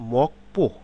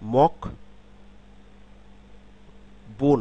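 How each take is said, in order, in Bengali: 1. দ্বিতীয় syllable টেনস 'p' ধ্বনি দিয়ে শুরু হয়। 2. দ্বিতীয় সিলেবল সাধারণ 'b' ধ্বনি দিয়ে শুরু হয়। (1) "তার উচ্চারণ প হবে" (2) "মক বো না"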